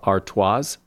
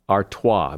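First: The final S sound is pronounced. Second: The final S sound is silent. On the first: The speaker calls it wrong. "A lot of people pronounce that last S as" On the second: The speaker calls it right. "The last S is silent"

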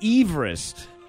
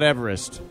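First: The name is said the original family way. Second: The name is said the common, everyday way. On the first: This is how the surveyor's own surname was said. The speaker calls it right. "That's how his last name was pronounced" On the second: This is how most people say the mountain's name. The speaker calls it wrong. "The correct pronunciation of Mount Everest is not Everest"

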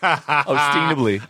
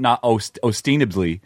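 First: It is said in an exaggerated put-on cartoon voice. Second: It is said in a normal speaking voice.

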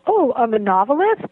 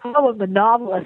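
First: The voice rises at the end. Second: The voice falls at the end. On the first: The speaker is unsure of the claim. "I'd say it with a question mark" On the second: The speaker is confident in the claim. "with a period or an exclamation point now"

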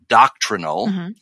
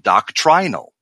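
First: The second vowel is a weak schwa. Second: The second vowel is a full long I. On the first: "which is a schwa in the first pronunciation" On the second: "you see the full long I value doctrinal in the alternate pronunciation"

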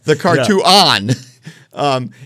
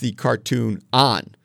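First: Each word is said clearly and carefully. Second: The words are run together and slightly slurred. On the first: The speaker calls it right. "say it nice and clear" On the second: The speaker calls it wrong. "I almost mispronounced it there"

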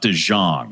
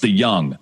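First: The second word starts with a 'j' sound. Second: The second word starts with a 'y' sound. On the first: The speaker calls it wrong. "not De Jong" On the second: The speaker calls it right. "my family name is pronounced De Young"

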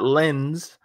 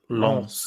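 First: The vowel is oral, like English lens. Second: The vowel is nasal, French style. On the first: The speaker calls it wrong. "not lens" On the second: The speaker calls it right. "it's like the nasal Lens"

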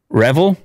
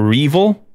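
First: The name sounds like the word revel. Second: The name sounds like R followed by evil.

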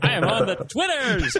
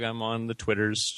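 First: It is said loudly, with lots of energy. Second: It is said flatly, with little energy.

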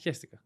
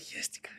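First: It is said in a casual, dismissive tone. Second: It is said in a worried, distressed tone. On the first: The speaker does not care. "Hestika just sounds like I really don't care" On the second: The speaker really soiled themselves. "you would say it in a different tone"

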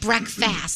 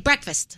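First: Both parts are said fully, like 'break fast'. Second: The word is reduced, like 'brekfast'. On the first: "I never say breakfast" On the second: "I say breakfast"

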